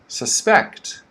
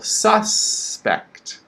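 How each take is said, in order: First: The stress is on the second syllable. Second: The stress is on the first syllable. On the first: It means to think someone did something. "The second word is the verb of this" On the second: It names a person thought to have committed a crime. "Stress on the first syllable"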